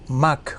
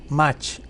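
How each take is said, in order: First: The word is said with German sounds. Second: The word is said with Spanish sounds.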